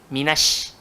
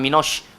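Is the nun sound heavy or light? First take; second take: light; heavy. First: The nun and vowel sound thin and light. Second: The nun and vowel sound thick and heavy. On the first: The speaker calls it right. "nipiskan nun" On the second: The speaker calls it wrong. "jangan minosh"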